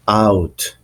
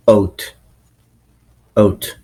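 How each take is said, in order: First: Said in the usual way. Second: Out said close to "oat"; Canadian pronunciation. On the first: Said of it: "certain sounds that are pronounced differently". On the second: Shown as a demonstration. Teacher showing how Canadians pronounce out, raised vowel. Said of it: "In Canadian accent, they pronounce like".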